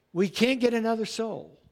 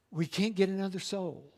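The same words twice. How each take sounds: First: Said in the usual way. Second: We can't get another soul, hushed and heavy; soft, grave first take. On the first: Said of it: "repeated louder". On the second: Shown as a demonstration. Preacher warning the congregation softly, hushed. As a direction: drop the voice to a hush. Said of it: "repeated line".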